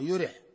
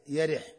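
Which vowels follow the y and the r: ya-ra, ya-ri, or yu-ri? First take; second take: yu-ri; ya-ri. First: The word is said with u after y, i after r. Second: The word is said with a after y, i after r. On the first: "بضم الياء مع كسر الراء" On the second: "وكسرها"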